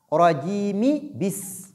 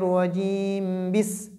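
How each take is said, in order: First: A short 'i' vowel links 'rajim' to 'bis'. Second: 'Rajim' ends on 'm' with no vowel. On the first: The speaker calls it right. "nous devons lire les signes, les voyelles courtes qui sont sous les dernières lettres" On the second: The speaker calls it wrong. "on ne dit pas"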